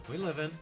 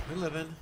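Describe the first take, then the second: Both takes have the same delivery.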